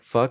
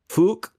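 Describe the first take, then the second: First: The word has its usual everyday pronunciation. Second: The word has an altered, UK-style vowel.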